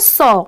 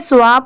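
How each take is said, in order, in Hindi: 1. s के बाद w की ध्वनि नहीं आती। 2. s के बाद w की ध्वनि आती है। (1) "इसे हम सिंपली क्या प्रोनाउंस करेंगे, सॉ" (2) "जैसे बहुत सारे लोग इसे स्वा पढ़ते हैं, बट नहीं"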